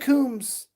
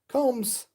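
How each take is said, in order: First: The vowel sounds like the one in 'room'. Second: The vowel sounds like the one in 'home'. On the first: The speaker calls it wrong. "don't say Coombs" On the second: The speaker calls it right. "It's Combs, like combing your hair"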